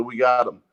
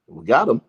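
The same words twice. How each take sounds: First: Said in the usual way. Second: Loud, swooping echoed question; incredulous echo. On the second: Retold or imitated. Stopped passenger repeats the officer's call, incredulous. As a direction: throw the officer's words back in disbelief.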